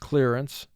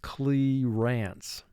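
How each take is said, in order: First: It is said normally with a relaxed second syllable. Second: The second syllable is exaggerated, sounding like 'rants'. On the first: This is how the word is said in speech. "the way we speak the word in vocabulary" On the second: This is how to say it to help spell it. "when you're spelling the word to yourself, you say"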